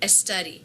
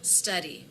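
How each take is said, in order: First: An E vowel is added before the S. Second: It starts directly with the S sound.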